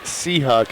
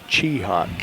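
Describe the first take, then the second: First: The name starts with an s sound. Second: The name starts with a ch sound. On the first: This is how people up here say it. "They pronounce it Seahawk up here" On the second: This is how people from the Wagner and Lake Andes area say it. "from that Wagner Lake Andes area where Don hails from, it's Cheehawk"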